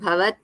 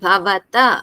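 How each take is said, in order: First: The word ends on a bare consonant. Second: The word ends with a full final 'a' vowel. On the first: The speaker calls it wrong. "not bhavat" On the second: The speaker calls it right.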